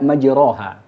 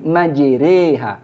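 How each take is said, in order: First: The vowel after r is an open a. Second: The vowel after r leans toward e. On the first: The speaker calls it wrong. "tidak majroha" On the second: The speaker calls it right. "Dibaca Bismillahi majreha karena memang hukumnya adalah imalah"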